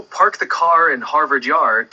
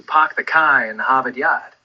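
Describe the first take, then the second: First: Said in the usual way. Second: "park the car in Harvard Yard" with the R sounds dropped, Boston style; Boston accent. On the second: Shown as a demonstration. Asked for a thick Boston accent, drops the Rs Boston style. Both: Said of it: "it's all about dropping those R sounds".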